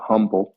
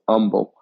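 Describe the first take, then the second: First: The name is pronounced just as it is spelled. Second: The name is pronounced in the local Texas way. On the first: This is how people from outside Texas say it. "For those non-Texans, you might pronounce it humble because that's how it's spelled" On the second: This is how local Texans say it. "But in Texas, it's pronounced humble"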